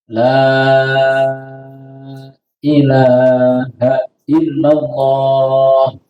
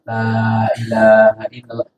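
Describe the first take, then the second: First: The vowel of the first 'la' is drawn out long. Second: The vowel of the first 'la' is held short. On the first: The speaker is already a believer. "Dibaca apa? Panjang" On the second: The speaker is just entering the faith. "Maka dibaca pendek"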